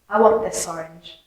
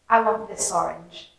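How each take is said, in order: First: The words run together into one sound. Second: The same.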